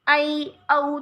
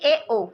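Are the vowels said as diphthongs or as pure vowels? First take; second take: diphthongs; pure vowels. First: Each vowel glides between two vowel sounds. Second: Each vowel is a single steady pure vowel. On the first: This is how eastern Hindi speakers said it. "पूर्वी हिंदी में ... संयुक्त स्वर के रूप में इसको बोला जाता था" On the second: This is how western Hindi speakers said it. "पश्चिमी हिंदी क्षेत्र के लोग थे वो इसका उच्चारण मूल स्वर के रूप में करते थे"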